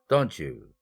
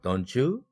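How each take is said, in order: First: The pitch falls at the end. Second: The pitch rises at the end. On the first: The speaker is sure and seeks agreement. "그러나 don't you? 너 돈 필요하잖아" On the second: The speaker does not know and is asking. "이렇게 상승 의문문으로 했다면"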